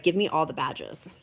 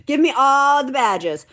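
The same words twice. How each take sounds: First: Said in the usual way. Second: Louder and higher, gleefully greedy; excited shout. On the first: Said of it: "I'm like". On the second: Pretend. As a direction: demand the badges like a thrilled kid. Playful repeat of her wish.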